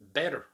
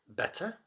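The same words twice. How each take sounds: First: The middle T is a quick flap. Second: The middle T is a clear T.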